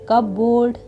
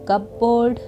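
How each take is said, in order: No difference in how they are said.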